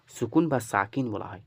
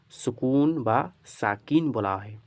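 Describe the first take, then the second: First: Said in the usual way. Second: সুকুন and Sakin drawn out slowly, long final vowels; slow teaching repeat. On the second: Shown as a demonstration. Teacher repeating the term after asking students, slow and drawn out. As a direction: stretch সুকুন and Sakin for learners.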